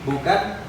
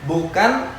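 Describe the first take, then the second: The two takes are said the same way.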